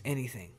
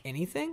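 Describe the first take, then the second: First: "Anything." as a settled reply, voice falling; answering. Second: Rising, higher-pitched question on "Anything?"; "Anything?" as a surprised question, voice going up. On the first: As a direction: answer "Anything." quietly, letting it drop at the end. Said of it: "And he goes". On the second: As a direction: ask "Anything?" as the kids would, lifting at the end. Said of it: "And they're like". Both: Acted.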